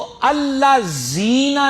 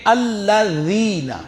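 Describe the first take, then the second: First: The consonant is a plain z sound. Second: The consonant is a th-like sound. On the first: The speaker calls it wrong. "नहीं" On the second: The speaker calls it right. "बल्कि ... जुबान की नोक दोनों दांतों के दरमियान"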